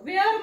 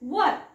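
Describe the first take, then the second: First: The vowel sounds like the one in 'air'. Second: The vowel sounds like the one in 'her'. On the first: The speaker calls it wrong. "वेअर म्हणू नका" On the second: The speaker calls it right. "वेअर उच्चार नाही करायचा. काय कराल? वर"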